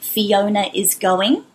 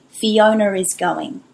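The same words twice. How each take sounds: First: No R sound links Fiona and is. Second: An R sound links Fiona and is. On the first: "if I were to say" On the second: "we put a connecting R in the middle"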